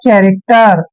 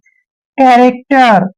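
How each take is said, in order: First: The word begins with a ch sound. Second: The word begins with a k sound. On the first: The speaker calls it wrong. "जो beginner है वो इसको पढ़ेगा चैरेक्टर, जो कि गलत है" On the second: The speaker calls it right. "इसको आपने चैरेक्टर नहीं पढ़ना है, कैरेक्टर पढ़ना है"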